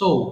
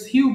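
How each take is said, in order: First: The word rhymes with 'so'. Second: The word rhymes with 'sue'. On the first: The speaker calls it right. "এটা সঠিক উচ্চারণ সৌ" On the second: The speaker calls it wrong. "আমরা ভুল করে সিউ বলে থাকি"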